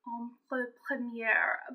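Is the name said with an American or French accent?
French. The name is said with a French accent.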